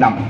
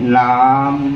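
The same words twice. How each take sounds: First: The tune of the word is kept short. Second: The tune of the word is drawn out long. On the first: The speaker's own group says water this way. "আমি কয়" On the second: Some Tai groups say water this way. "টিউনটো অকণমান লম্বা কি কয়"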